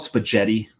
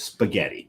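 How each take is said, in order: First: The G is a soft sound. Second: The G is a hard sound. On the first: The speaker calls it wrong. "do you call it spaghetti? No" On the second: The speaker calls it right. "it's spaghetti. ... There's a G H in there"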